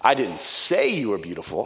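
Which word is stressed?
say. The stress is on "say".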